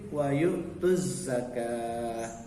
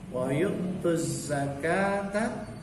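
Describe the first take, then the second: First: The last word ends with a clipped 'ah' sound. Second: The last word ends with a full 'ata' sound. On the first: The reciter stops at this word. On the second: The recitation continues without stopping.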